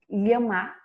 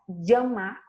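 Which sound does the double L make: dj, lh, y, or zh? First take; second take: lh; dj. First: The double L sounds like a palatal 'ly'. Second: The double L sounds like 'dj'. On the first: "com som de L H" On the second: "com som de D J"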